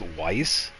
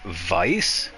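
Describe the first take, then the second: First: The word begins with a W sound. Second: The word begins with a V sound. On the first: This is how many other people say it. "a lot of other people pronounce this Weiss" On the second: This is the speaker's own way, following the German. "personally, I pronounce this Vice because it is a German word"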